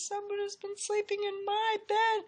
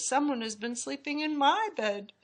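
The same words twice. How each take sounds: First: It is said in a wee little voice. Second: It is said in a middle-sized voice.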